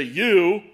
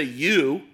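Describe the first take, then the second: First: "you" said higher and louder, aimed at one person; single out the son with a sharp "you"; pointed singular you. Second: Said in the usual way. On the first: Shown as a demonstration. To his son in the congregation, a pointed louder "you". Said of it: "If I look over at my son". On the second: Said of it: "I'm talking to all of you".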